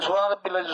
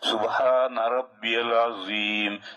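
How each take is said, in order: First: It is said quickly and hurriedly. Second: It is said slowly and clearly.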